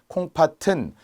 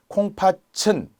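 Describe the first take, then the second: First: The final consonant links over as a plain 't' sound. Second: The final consonant is palatalized to a 'ch' sound. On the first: The speaker calls it right. "나머지는 연음하여서" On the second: The speaker calls it wrong. "잘못된 국외음화를 하는 거죠"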